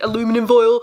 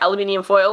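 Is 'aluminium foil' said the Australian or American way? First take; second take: American; Australian. First: It is said with an American pronunciation. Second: It is said with an Australian pronunciation. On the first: It is adapted so the listeners understand. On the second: The listeners did not understand it.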